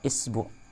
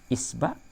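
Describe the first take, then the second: First: The vowel after the b is u. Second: The vowel after the b is a. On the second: "Jadi a-nya itu bisa a"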